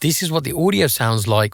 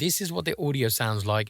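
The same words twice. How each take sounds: First: The level is reduced a little. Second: The level is reduced a lot. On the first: "with the minus ten decibel attenuation pad" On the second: "with the minus twenty decibel attenuation pad"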